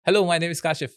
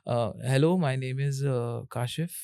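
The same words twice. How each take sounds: First: Smooth, crisp "Hello, my name is Kashif" in one flowing breath; fluent, assured "Hello" with a clean falling finish; confident intro. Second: Quiet, halting "hello, my name is" with an "अ" before each part; unsure self-introduction that stumbles and hangs on fillers; a timid, lower, faltering "hello, my name is Kashif"; hesitant intro. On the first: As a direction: introduce yourself like you own the room. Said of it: "ये बहुत different sound कर रहा है". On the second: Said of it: "ये बिल्कुल अच्छा नहीं लग रहा है". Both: Shown as a demonstration.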